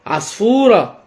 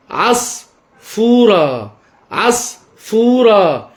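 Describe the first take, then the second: First: Said in the usual way. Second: عصفورة in two long pieces, عص... فورة; stretched, broken-up عصفورة for a child to follow; syllable by syllable. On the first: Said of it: "بنطق كلمة العصفورة صح". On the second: Shown as a demonstration. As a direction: say عصفورة very slowly, pausing after عص. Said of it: "أو تقطيع أو تظليل".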